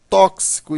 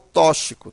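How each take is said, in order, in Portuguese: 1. O x é pronunciado como dois sons, k-s. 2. O x é pronunciado como um único som. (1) "a pronúncia é tóxico" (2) "e não"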